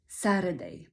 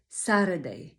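First: The middle consonant is a quick flapped r. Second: The middle consonant is a quick flapped r.

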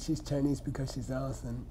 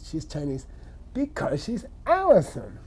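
First: It is said in a plain, neutral tone. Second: It is said in a knowing, obvious tone. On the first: It is a plain statement of a reason. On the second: It implies everybody already knows.

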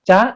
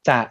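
First: The syllable is said with a high tone. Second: The syllable is said with a low tone. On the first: "ไม้ตรี" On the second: "คำว่าจะเนี่ยมันอยู่ในตำแหน่งที่เป็นเสียงเอกอยู่แล้ว"

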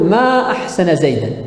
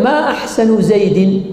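First: The final word ends in an a vowel. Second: The final word ends in an i vowel. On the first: It expresses wonder at how good he is. "بالنصب" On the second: It asks which part of him is most beautiful. "وجررنا زيد"

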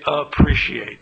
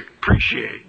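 First: The word begins with a clear 'a' sound. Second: The word begins without the 'a' sound. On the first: The speaker calls it wrong. "in North Carolina, we don't say appreciate" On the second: The speaker calls it right. "We say appreciate. You drop that A off"

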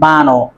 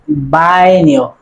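First: The middle consonant is a plain 'n' sound. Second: The middle consonant is an 'ny' sound. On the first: The speaker calls it wrong. "not Bano" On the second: The speaker calls it right. "this word will be pronounced like Baño"

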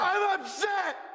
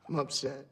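First: It is said loudly. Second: It is said quietly.

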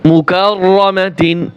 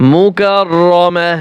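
First: The word ends with a t sound and -in. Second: The word ends with a soft h sound. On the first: The reader continues without stopping on the word. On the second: The reader stops on this word.

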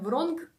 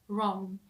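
First: The word ends with a pronounced hard G sound. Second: The word ends in a nasal sound without G. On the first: The speaker calls it wrong. "Це не вронг" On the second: The speaker calls it right. "а це wrong"

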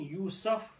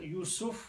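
First: The vowel after the s is a. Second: The vowel after the s is u. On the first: "with the Fatha" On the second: "with the Dhamma on the scene"

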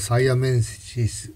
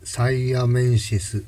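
No difference in how they are said.

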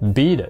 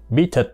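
First: The t linking the words is a soft d-like flap. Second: The t linking the words is a clear t. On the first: This is how American speakers say it. "người Mỹ á, thì họ đã gọi bí địch" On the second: This is how British or Australian speakers say it. "bí thịt là chỉ có người Anh hay người Úc thôi"

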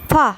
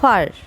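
First: The final r is not pronounced. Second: The final r is clearly pronounced. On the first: "British ইংলিশে বলবে ফা" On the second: "American ইংলিশে বলবে ফার"

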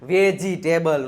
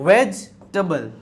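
First: The word has four syllables. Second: The word has three syllables. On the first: The speaker calls it wrong. "વેજીટેબલ નો હોય" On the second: The speaker calls it right. "વેજીટેબલ નહીં, વેજટેબલ"

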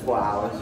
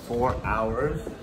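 First: It is said in a Boston accent. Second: It is said in a plain, unaccented way.

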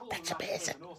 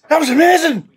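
First: It is said quietly, almost whispered. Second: It is said loudly, almost shouted.

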